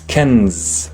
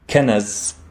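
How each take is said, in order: First: No vowel follows the n sound. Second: An a vowel follows the n sound. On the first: The speaker calls it right. "It's kenz" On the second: The speaker calls it wrong. "the noon in the middle does not have a fatha"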